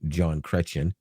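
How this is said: The name is said with an American pronunciation.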